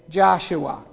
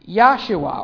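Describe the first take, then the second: First: The name begins with a J sound. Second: The name begins with a Y sound.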